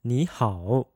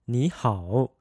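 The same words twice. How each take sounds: First: The third tone falls and then rises fully. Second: The third tone falls and then rises fully.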